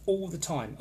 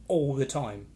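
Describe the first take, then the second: First: Said in the usual way. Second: ALL drawn out slowly in "all the time"; stress on ALL. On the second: Real, not acted. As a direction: lean hard and long on the word all. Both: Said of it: "and I mean all the time".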